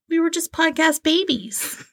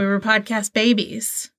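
First: It is said in a cute, cutesy voice. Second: It is said in a plain, normal voice.

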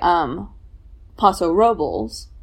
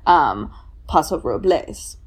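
First: It is said with a local English pronunciation. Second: It is said with a Spanish pronunciation. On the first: This is how long-time local residents say it. "not the Spanish pronunciation" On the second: This is the form considered proper. "try to get them to say Paso Robles"

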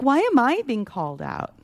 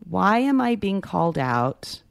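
First: It is asked in an indignant, defensive way. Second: It is asked as a sincere, curious question. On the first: The speaker resents being criticized. The speaker calls it wrong. "It's more like" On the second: The speaker genuinely wants to know the reason. The speaker calls it right. "whereas it could be an actual inquiry"

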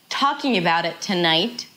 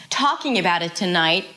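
Both takes have the same delivery.

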